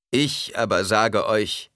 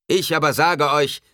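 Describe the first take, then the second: First: Slow, measured, moderately raised declaration; restrained proclamation. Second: High, loud, forceful declaration; loud proclamation. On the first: Preacher counters what is said, restrained slow proclamation. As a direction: declare it deliberately, holding back the thunder. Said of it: "Er senkte die Stimme und fuhr fort". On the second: Preacher contradicts the believers, loud proclamation. Preacher rebukes crowd at full voice. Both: A narrator's reading.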